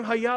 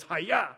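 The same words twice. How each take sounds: First: "Hi-ya" said higher, as a question, like a name; Hi-ya as God's name. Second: A quick sword-strike cry "Hi-ya!"; toy sword noise. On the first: Dad turns the sword noise into the name of God, lifted. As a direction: teach the son "Hi-ya" with a lifted, questioning tone. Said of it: "you hear that name". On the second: Dad mimics his son's toy samurai sword, quick cry. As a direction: imitate the toy sword's slash sound. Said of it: "it just goes". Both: Retold or imitated.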